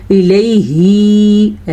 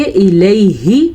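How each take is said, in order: First: "الیہ" with the final hi dragged out long; wrong over-long ending. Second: "الیہ" with a short final hi; correct short ending. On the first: Teacher showing a common mistake, "الیہ" with an over-long final hi. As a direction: stretch the last vowel of "الیہ" on a held note. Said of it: "ایسے پڑھتے ہیں، نہیں جناب". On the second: Teacher modelling it correctly, "الیہ" with the last vowel kept short. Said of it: "اس کو ہم پڑھیں گے الیہ". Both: Shown as a demonstration.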